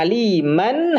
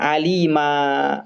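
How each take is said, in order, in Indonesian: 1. Berakhir dengan bunyi n. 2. Berakhir dengan vokal. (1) "terdengar suara an" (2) "hilang suara an-nya"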